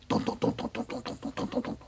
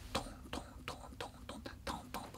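First: Breathy rapid "トントン" for running feet upstairs; whispered footsteps. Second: Fast breathy "トントン" for feet rushing downstairs; fast whispered footsteps. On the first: 二階で子供が走り回る足音. (ささやき声の足音) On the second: 階段を降りる子供の足音. (速いささやき声の足音) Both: Retold or imitated.

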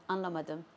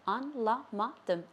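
First: Said in the usual way. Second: Slow "Anlamadım", split an, la, ma, dım; syllable by syllable. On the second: Shown as a demonstration. Teacher teaching "Anlamadım" to learners, slowly syllable by syllable. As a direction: spell out "Anlamadım" in four separate beats.

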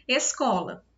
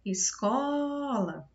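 First: Said in the usual way. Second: ESCOLA called out with a long held CO; slow, sustained es-COOO-la; calling the word. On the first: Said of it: "quando eu chamei". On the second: Shown as a demonstration. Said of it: "eu mais me demorei quando eu chamei".

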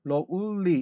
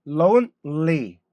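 First: Lonely with the n turned into l, like lolly; wrong Korean-style lonely. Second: Very slow lonely with a clear n before l; careful lonely. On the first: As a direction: let the n melt into the l in lonely. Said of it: "M 발음을 L처럼 발음한단 말이에요". (n을 l처럼 발음한 잘못된 lonely) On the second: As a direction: stretch out lonely, sounding every consonant. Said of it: "M 발음이에요". (모든 자음을 살려 천천히 발음한 lonely) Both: Shown as a demonstration.

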